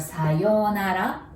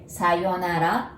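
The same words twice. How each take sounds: First: The 'yo' vowel is held long. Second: The 'yo' vowel is short. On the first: "there is U between yo and na... so you pronounce it like O" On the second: "Sayonara has four characters"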